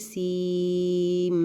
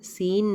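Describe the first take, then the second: First: The word ends with a nasalized m sound. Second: The word ends with a plain n sound. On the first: The speaker calls it right. "बल्कि सीम गुन्ना" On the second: The speaker calls it wrong. "इसको हम सीन नहीं पढ़ेंगे"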